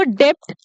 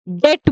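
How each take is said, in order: First: डेप्ट said "dept", p sounded; wrong "debt" with p. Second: डेट said "det", nothing before the t; teacher's model डेट, rhyming with "get"; correct silent-b "debt". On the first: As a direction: pronounce a p before the t in डेप्ट. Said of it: "इसको डेप्ट नहीं बोलेंगे". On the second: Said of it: "डेट बोलेंगे". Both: Shown as a demonstration.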